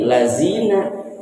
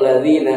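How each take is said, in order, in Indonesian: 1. Huruf tengahnya bunyi 'z' yang bergetar. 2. Huruf tengahnya bunyi 'dh' yang lembut. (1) "Diganti jadi zai" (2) "lafaz alladzina huruf dzal"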